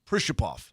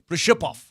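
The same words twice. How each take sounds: First: The stress falls on a different syllable. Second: The stress falls on the middle syllable. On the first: This is the anglicized form the bearer prefers. "he wants the Americanized version" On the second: This is how it is said in the original language. "in Russia, it would be Prishapov. the focus would be on the ship"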